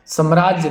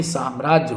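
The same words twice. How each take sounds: First: साम्राज्य as "sam-raajya"; short first vowel. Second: साम्राज्य as "saam-raajya"; long first aa. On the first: Teacher showing the mistake, साम्राज्य with short "sa". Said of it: "साम्राज्य नहीं". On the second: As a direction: open साम्राज्य with a long "saa". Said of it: "साम्राज्य होता है". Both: Shown as a demonstration.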